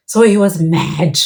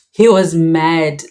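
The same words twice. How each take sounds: First: Mad said slow and firm, a little louder; stress on mad. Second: "He was mad" dragged out very slowly, each word weighted; slow it right down and hammer mad; slow emphatic repeat. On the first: Telling the audience how angry dad was, stressing mad. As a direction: lean on the word mad with weight. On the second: Repeating to the audience just how furious dad was, slow and heavy. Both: Real, not acted.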